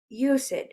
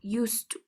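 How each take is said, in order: First: It sounds like 'use it', with an extra vowel. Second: The t sounds merge into one smooth sound. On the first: The speaker calls it wrong. "we don't say I use it" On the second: The speaker calls it right. "the sound combines"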